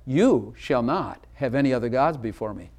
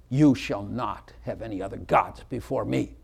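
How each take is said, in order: First: "You shall not have any other gods before me" read as a promise. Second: "You shall not have any other gods before me" as a stern command; command reading. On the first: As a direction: stress on "You" as a gift. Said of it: "But what if I said". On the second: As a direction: stress on "You" as an order. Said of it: "I'll put some emphasis on it". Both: Shown as a demonstration.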